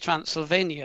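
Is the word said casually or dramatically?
casually. The word is said in a flat, offhand way. The place is mentioned as somewhere ordinary. The speaker calls it wrong. "I was trying to put it in like casual"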